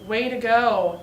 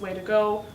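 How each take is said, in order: First: It is said with a sarcastic, mocking tone. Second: It is said in a flat, neutral tone.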